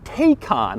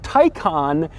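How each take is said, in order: First: The name is said just as it is spelled. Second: The name is said unlike its spelling suggests. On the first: The speaker calls it wrong. "not Taycan, which is odd because it looks like it would be pronounced Taycan" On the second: The speaker calls it right. "that is how you say it"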